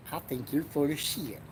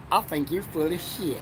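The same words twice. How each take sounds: First: Much softer, slurred I think you're full of shit; mumbled catchphrase. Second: Character catchphrase. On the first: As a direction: toss it off, trailing into shit. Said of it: "But he says it like shit". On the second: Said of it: "that's Rusty Ratliff's catchphrase". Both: Acted.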